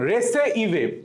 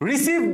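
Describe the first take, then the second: First: It sounds like re-ce-i-ve, read from the letters. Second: It sounds like the usual word receive. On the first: "বলবা রেসে আই ভি ই" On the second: "রিসিভ তুমি পড়বাই না"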